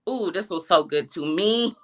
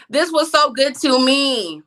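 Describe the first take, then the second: First: Said in the usual way. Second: Louder and slower, leaning on so; emphatic repeat. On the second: Shown as a demonstration. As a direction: savour each word, slowly and loud.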